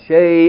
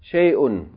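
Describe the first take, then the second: First: The word ends abruptly in a glottal stop. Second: The word ends with an added -un sound. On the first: The reader pauses at this word. "You have to stop" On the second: The reader continues reading without pausing. "if you keep reading to the rest of the ayah, then you have to say shay'un"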